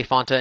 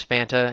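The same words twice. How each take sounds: First: "Fanta" with an open "ah", like FAHN-ta; own pronunciation of Fanta. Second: "Fanta" with a short a, like FAN-ta; flat "a" as in "fan" in "Fanta"; other pronunciation of Fanta. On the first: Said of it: "debating for a couple days about how to pronounce Fanta". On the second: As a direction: say "Fanta" to rhyme with Santa. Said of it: "George says Fanta". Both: Shown as a demonstration.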